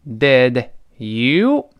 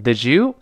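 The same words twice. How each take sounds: First: Said in the usual way. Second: DID YOU run together as "di-jou"; linked DID YOU. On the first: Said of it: "放在一块儿读成". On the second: Shown as a demonstration. Teacher shows the linking, DID YOU said as "di-jou". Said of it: "放在一块儿读成did you".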